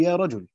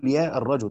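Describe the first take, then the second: First: Said in the usual way. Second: يا الرجل with the article kept, "ya ar-rajul"; article after vocative. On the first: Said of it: "تقول". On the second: Shown as a demonstration. Teacher gives the forbidden form, article sounded in يا الرجل. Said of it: "لا تقول".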